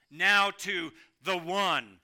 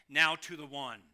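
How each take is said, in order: First: "Now" stressed, the whole line slow and louder; emphatic. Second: Said in the usual way. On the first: Shown as a demonstration. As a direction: stretch out "Now to the one" with weight. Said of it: "This emphatic statement". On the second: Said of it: "It literally reads in the Greek".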